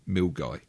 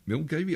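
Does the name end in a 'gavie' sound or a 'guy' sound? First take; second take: guy; gavie. First: The name ends in a 'guy' sound. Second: The name is read as it is spelled. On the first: The speaker calls it right. "pronunciation hint: Milguy" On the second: The speaker calls it wrong. "was that Milgavie?"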